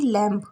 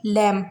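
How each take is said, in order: First: लैम्प with a b sounded at the end; wrong लैम्प, b pronounced; wrong pronunciation. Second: लैम ending on m; लैम, b left silent; correct pronunciation. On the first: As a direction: say लैम्प with the final b heard. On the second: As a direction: say लैम with no b at the end. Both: Shown as a demonstration. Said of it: "ना कि लैम्प".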